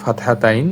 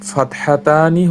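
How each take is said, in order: First: The word ends with the syllable 'tain'. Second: The word ends with the syllables 'ta-ni'. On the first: This is the common Bengali form. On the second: This is the Arabic form.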